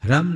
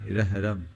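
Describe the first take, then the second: First: The syllable begins directly with an h sound. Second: A short r sound comes before the h. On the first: The speaker calls it wrong. "ह्रम नहीं" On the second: The speaker calls it right. "रेफ पहले यानी आधा र"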